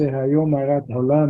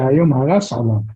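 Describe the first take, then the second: First: The middle word ends in a t sound. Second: The middle word ends in an s sound. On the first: Today the world was created. "We say Hayom Harat Olam" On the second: Today the world was destroyed.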